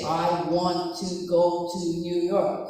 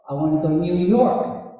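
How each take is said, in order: First: Every word gets its own careful beat. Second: Words rush quickly into one beat on New York.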